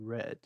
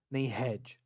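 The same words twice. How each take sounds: First: Red with a long throaty English r, lower; correct English R. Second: Red said like 'head', r as breath; wrong R, as h. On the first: Teacher correcting students, long retroflex r in red. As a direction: hold the r at the start of red, low and soft. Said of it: "É red". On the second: Teacher showing a version that doesn't exist, h-sound in red. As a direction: say red with a Brazilian h for r. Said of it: "Não existe isso". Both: Shown as a demonstration.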